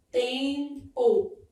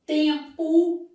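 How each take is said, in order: First: "tempo" broken into "tem... po"; slow "tempo" in two separate syllables; syllable split. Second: "Tempo" stretched but joined, raised voice; word sounded out. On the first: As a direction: hold the nasal "tem", pause, then a falling "po". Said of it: "isso aqui é que vai ser o dígrafo". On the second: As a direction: say "Tempo" firmly, lengthening the nasal "tem". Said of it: "vai ter um dígrafo assim". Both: Shown as a demonstration.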